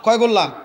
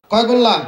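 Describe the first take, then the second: First: Said in the usual way. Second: Louder call to the crowd. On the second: Real, not acted. Preacher pressing the silent crowd, louder question. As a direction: push the question out loud to the audience. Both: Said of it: "কথা বলে না ভাই".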